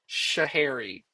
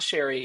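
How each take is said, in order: First: The name is said in full as Shahari. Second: The name is shortened to sound like Sherry. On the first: The speaker calls it right. "it's Shahari" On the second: The speaker calls it wrong. "It's not Sherry"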